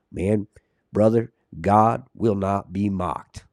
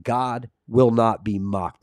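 First: Lightly imitated slow Southern accent; Jeff's Southern accent. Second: Said in the usual way. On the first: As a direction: attempt a slow Southern drawl, not quite convincingly. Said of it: "with that Southern accent". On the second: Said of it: "I love the way that he says that".

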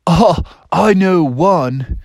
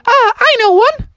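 First: Slow, drawn-out, higher voice; laid-back pupil Bill. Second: Very high, loud squeaky mouse; little mouse. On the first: Bill answers the teacher, slow drawn-out voice. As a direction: stretch each word lazily. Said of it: "He said". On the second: Mouse pupil volunteers from the back, high squeaky voice. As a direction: pipe up in a tiny falsetto. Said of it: "a little mouse in the back". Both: Acted.

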